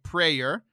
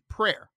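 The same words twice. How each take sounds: First: It is said as two syllables, like pray-er. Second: It is said as one syllable, like prare. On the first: "Like P-R-E-Y-E-R, like prayer" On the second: "or P-R-A-R-E, prayer"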